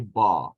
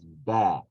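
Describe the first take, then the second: First: The syllable is said heavy, with a full vowel. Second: The syllable is said soft, with a light vowel. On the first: The speaker calls it wrong. "It doesn't say ba" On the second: The speaker calls it right. "So ba is one of the soft letters. It says ba"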